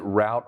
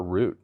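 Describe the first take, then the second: First: "route" said to rhyme with "out"; "route" pronounced like "rout". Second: "root" said with an OO vowel; "root" as the other way of saying route. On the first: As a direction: say "route" with an OW vowel. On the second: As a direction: say "root" to rhyme with "boot". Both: Shown as a demonstration. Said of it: "Is it route or root?".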